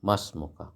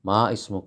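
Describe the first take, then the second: First: The initial vowel is dropped, words run together. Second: The initial vowel of ismuka is pronounced separately. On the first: The speaker calls it right. "ഉച്ചരിക്കൂല" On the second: The speaker calls it wrong. "എന്ന് പറയില്ല"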